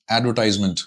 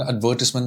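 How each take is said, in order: First: "അഡ്വർടൈസ്മെന്റ്" as AD-ver-tize-ment, long "tize"; American-style "അഡ്വർടൈസ്മെന്റ്" with an eye vowel in the third syllable; American pronunciation. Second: "അഡ്വർടൈസ്മെന്റ്" as ad-VER-tis-ment, short "tis"; British-style "അഡ്വർടൈസ്മെന്റ്", stressed on the second syllable; British pronunciation. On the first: Coach giving an example word we use, American pronunciation. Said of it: "American അത് use ചെയ്യാം". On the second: Coach contrasting it with the common form, British pronunciation. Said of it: "അത് British pronunciation". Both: Shown as a demonstration.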